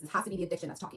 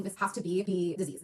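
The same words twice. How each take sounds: First: Said in the usual way. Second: Slow, every word weighed, stress on "has"; slow insistence. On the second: Retold or imitated. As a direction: convince yourself slowly: "This has to be the disease".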